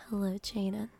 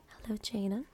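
Both takes have the same delivery.

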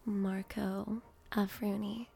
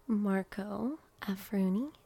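No difference in how they are said.

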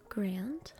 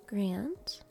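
No difference in how they are said.

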